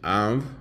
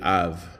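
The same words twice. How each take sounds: First: The v sound has air through the nose. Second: The v sound has no air through the nose. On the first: "this MH is" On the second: "the BH would be"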